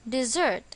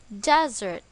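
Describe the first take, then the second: First: The stress is on the second syllable. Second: The stress is on the first syllable. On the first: It means to leave or abandon someone. "Its pronunciation is dessert" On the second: It means a dry region of land. "The stress is on the first syllable"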